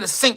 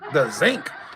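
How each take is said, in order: First: The word begins with a hissing s sound. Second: The word begins with a buzzing z sound. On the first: This is the usual way to say it. "She don't say the sink" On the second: This is how an older relative says it. "She say the zinc"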